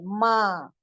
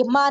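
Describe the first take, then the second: First: माँ pulled long into the nose; nasal, drawn out. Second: माँ said as plain "maa", no nasal; non-nasal vowel. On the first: Urdu teacher showing learners the right sound, nasal and drawn out. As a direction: draw out माँ with a hidden n. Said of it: "इसको खींचा गया है". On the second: Urdu teacher showing learners what it is not, oral vowel. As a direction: drop the nose sound from माँ. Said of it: "ये माँ नहीं है". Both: Shown as a demonstration.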